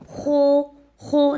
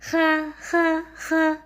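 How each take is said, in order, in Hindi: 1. स्वर गोल होंठों से बोला जाता है। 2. स्वर मुस्कुराते हुए, होंठ फैलाकर बोला जाता है। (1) "दोनों होंठों को गोल नहीं करना... तो ये गलत हो जाएगा" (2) "हंसते हुए भी नहीं पढ़ना... तो ये भी गलत होगा"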